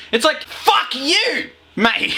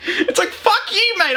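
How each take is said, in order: First: Much higher, slow, hammed-up bloke; mock yobbo shout. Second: Much higher, laughing through a yobbo shout; laughing mock shout. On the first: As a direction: sneer it like a rude litterbug. Mocking litterbug attitude. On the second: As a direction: crack up mid-sneer. Repeat, laughing.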